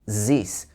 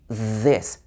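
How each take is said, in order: First: It starts with a buzzing z sound. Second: It starts with a th sound, tongue forward. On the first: The speaker calls it wrong. "French speakers might pronounce this as zis or sis" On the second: The speaker calls it right. "But it should be this"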